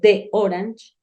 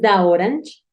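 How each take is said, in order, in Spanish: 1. 'The' se dice con una vocal corta 'deh'. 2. 'The' se dice con una vocal abierta 'dah'. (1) "Si tú dices de orange, queda raro" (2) "Si tú dices da orange, queda como da hora"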